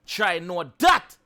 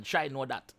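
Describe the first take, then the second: First: Drawn-out Try know that, rising on that; slow, pointed Try know that; slow emphatic. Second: Said in the usual way. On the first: Real, not acted. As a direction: stretch each word out, louder. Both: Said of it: "repeating with emphasis".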